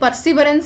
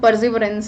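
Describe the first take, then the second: First: The middle consonant is an s sound. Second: The middle consonant is a z sound. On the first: The speaker calls it wrong. "ये परसिवरेंस नहीं है" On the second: The speaker calls it right. "पहली बात तो परजिवरेंस है"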